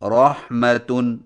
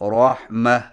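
First: The word ends with a tan sound. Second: The word ends with a silent h sound. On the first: The word is read without stopping. "جب آخری حرف گولتا ہو" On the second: The word is read at a stop. "جزم والی ہا سے بدل کر وقف کریں"

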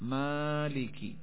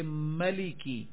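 First: The vowel after the m is lengthened. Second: The vowel after the m is kept short. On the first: This is the reading of one group of reciters. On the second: This is the reading of the other reciters.

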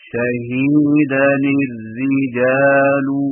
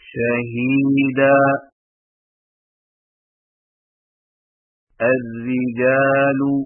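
First: The words are joined without a stop. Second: There is a stop after the first word. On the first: "وصلاً" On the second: "وقفاً"

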